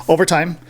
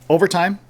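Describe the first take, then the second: The two takes are said the same way.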